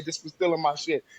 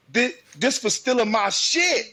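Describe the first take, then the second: First: Said in the usual way. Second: High, loud mock fight yell; loud as possible. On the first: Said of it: "I want you to say". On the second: Parent showing daughter her fight line, loud. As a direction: belt it out with amusement. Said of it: "say it loud, loud as you can".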